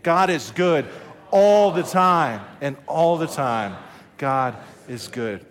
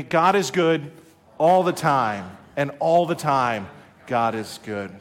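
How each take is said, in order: First: Mean every word; say it like you mean it. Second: Steady rhythmic chant; chanted, say it together with them; chanted, congregation call and response, led from the pulpit. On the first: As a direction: pastor pushing the church to chant with conviction. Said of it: "say it like you mean it". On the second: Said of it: "would you say that with me". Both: Shown as a demonstration.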